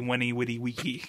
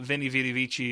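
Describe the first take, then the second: First: Each word begins with a W sound. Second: Each word begins with a V sound. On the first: "is actually Winnie Witty Wiki, which sounds much less good" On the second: "And the V's were W's"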